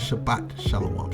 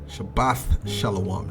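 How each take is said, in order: First: The first word ends with a hard 't' sound. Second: The first word ends with a soft 'th' sound. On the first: The speaker calls it wrong. "Not Shabbat Shalom" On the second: The speaker calls it right. "Shabbath would be the correct pron- pronunciation"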